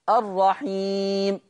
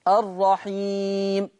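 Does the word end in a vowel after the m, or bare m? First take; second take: bare m; bare m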